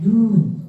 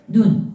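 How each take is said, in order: First: The vowel is held long. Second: The vowel is held short. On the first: It means snow falling from the sky. "하늘에서 내리는 눈은 눈, 길게" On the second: It means the eye. "우리 눈은 눈, 짧게"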